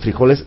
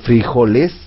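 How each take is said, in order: First: The stress is on the second syllable. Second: The stress is on the first syllable. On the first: This is the form not used in Colombia. "no le dicen frijoles" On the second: This is the form used in Colombia. "que tiene un acento en la I"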